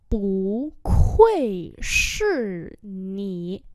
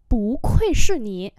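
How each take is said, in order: First: Syllable by syllable; slow model for learners; slow demonstration. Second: Said in the usual way. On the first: Shown as a demonstration. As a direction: stretch out every tone. Teacher repeats phrase slowly.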